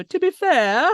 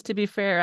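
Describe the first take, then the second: First: To be fair sung out higher and louder; Letterkenny catchphrase. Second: Said in the usual way. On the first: Retold or imitated. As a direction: echo it in the show's drawl. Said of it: "I just go". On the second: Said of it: "somebody at work says".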